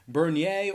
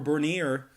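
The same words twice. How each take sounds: First: The name is said the non-American way. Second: The name is said the American way.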